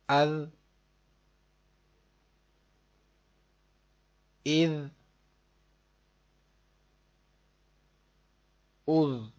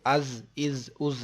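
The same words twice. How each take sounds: First: The consonant is a soft, lisped th-like sound. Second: The consonant is a hard, buzzing z sound. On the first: The speaker calls it right. "जाल को नरमी से पढ़ेंगे आप" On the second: The speaker calls it wrong. "इसको अज इज उज नहीं पढ़ना"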